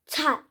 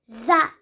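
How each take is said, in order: First: The word begins with a plain t sound. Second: The word begins with a soft th sound. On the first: The speaker calls it wrong. "don't make it like, oh, tat, tat. It won't make any sense" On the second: The speaker calls it right. "it's actually called that"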